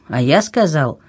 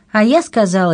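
First: Lightly voiced man's retort in natural pitch; a hint of a stubborn king; insistent king. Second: Higher, lightly voiced woman insisting; raised, stubborn feminine retort; insistent woman. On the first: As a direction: counter firmly, without raising the pitch. King retorts with her words. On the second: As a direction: argue back, pitched up. Anna argues back at the king.

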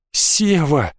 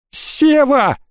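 First: Subdued, fearful call of the name; trembling voice. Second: Much higher, urgent cry of the name; almost shriek the name in panic; near squeal. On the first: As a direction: call out with a slight tremor. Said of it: "Его голос снова задрожал". (дрожащим голосом) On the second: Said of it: "Ржавый чуть ли не взвизгнул". (почти взвизгнув) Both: A narrator's reading.

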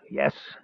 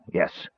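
First: Very soft, meek one-word reply; more subdued. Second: Soft, subdued one-word reply. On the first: Big man yielding to strict orders, very subdued. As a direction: barely voice your agreement. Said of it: "Caramon sounded more subdued still". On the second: Big man answering the mage's order, subdued. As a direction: give in quietly. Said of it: "Caramon sounded subdued". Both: A narrator's reading.

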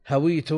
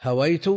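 First: هويت as "hawītu", long i after the w; كسر الواو. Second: هويت as "hawaytu", a after the w; فتح الواو. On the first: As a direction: say هويت with kasra on the waw: ha-WEE-tu. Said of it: "هويت وهويت". (نطق «هويت» بكسر الواو) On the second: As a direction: say هويت with fatha on the waw: ha-WAY-tu. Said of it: "وهو بفتح الواو". (نطق «هويت» بفتح الواو) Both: Shown as a demonstration.

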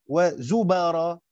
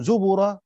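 First: Wa-zubara, b given a fatha. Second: Zubura, b given a damma. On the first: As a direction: open the middle vowel of zubara to a. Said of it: "بفتح الباء". (زُبَرًا بفتح الباء) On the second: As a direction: round the middle vowel of zubura to u. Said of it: "زبرا بضم الباء". (زُبُرًا بضم الباء) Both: Shown as a demonstration.

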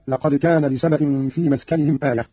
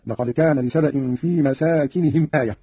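First: Said in the usual way. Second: مساكنهم as "masaakinihim", long a after the s; plural reading. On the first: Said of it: "بفتح السين وألف بعدها". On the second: Shown as a demonstration. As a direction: open the sin long and put an i on the kaf in مساكنهم. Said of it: "بفتح السين وألف بعدها وكسر الكاف". (مساكنهم بألف بعد السين وكسر الكاف)

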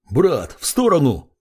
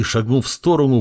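First: Yelled warning, pitched higher; yelling. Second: Said in the usual way. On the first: Acted. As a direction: shout the warning across the room. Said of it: "Завопил Балашов". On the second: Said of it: "plain narration".

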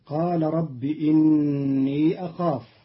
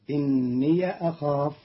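First: إني said with a plain long i before أخاف; standard reading. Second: إني said as inniya with an open ya; Qalun's reading. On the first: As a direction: say إني أخاف without a ya vowel. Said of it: "قرأ قالون كلمتي". (إني أخاف بإسكان الياء) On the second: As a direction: say إنيَ أخاف, opening the ya. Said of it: "بفتح ياء الإضافة". (فتح ياء الإضافة في إنيَ) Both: Shown as a demonstration.

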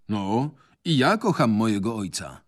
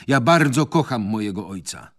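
First: "No, i ja kocham mojego ojca" with ja hit hardest; stress on ja. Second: "Ja bardzo kocham mojego ojca" with bardzo hit hardest; stress on bardzo. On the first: The student mimics the German, stressing ja. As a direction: punch ja, as in me too. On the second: The German insists to the student, stressing bardzo. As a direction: lean on bardzo, falling after. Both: A narrator's reading. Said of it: "rzekł kudłaty kolega".

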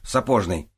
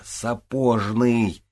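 First: Said in the usual way. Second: Very slow, higher-pitched wail; ecstatic howl. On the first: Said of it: "Я думал, это его нож". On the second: A narrator's reading. Vvedenskaya echoes the boy's word, howling rapturously. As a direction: howl the word, stretching each syllable. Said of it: "Введенская самозабвенно взвыла".

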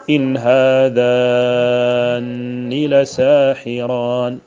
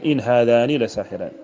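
First: Slow chanted recitation, هذان with a long "aa" and held double n; doubled final noon. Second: هذان said "haadhaani" with a light single n; undoubled noon. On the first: Teacher demonstrating Ibn Kathir's reading, chanted with doubled noon. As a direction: chant it, stretching هذان into "haadhaaanni". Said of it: "ابن كثير يشدد النون الأخيرة". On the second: Teacher demonstrating Hafs's reading, single light noon. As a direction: recite it unchanted, no held n in إن or هذان. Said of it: "وحفص ما يشدد النون". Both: Shown as a demonstration.

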